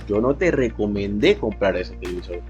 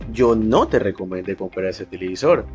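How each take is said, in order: First: The word recomendé carries the main stress. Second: The word yo carries the main stress. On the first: I said something about it, but not a recommendation. "significa que yo a esa persona le dije cualquier cosa acerca del televisor" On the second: Someone other than me recommended buying it. "Indica que al menos yo no fui quien recomendó comprar ese televisor"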